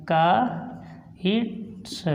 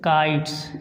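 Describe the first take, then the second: First: kites stretched very slowly and softly; slow repeat of kites for pupils; kites drawn out very slowly. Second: kites said lower with a crisp final ts; kites ending clearly in ts; modelled pronunciation. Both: Shown as a demonstration. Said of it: "उसके बाद तो हम इसको बोलेंगे".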